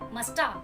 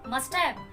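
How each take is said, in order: First: The words are reduced and run together. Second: Both words are said fully and separately.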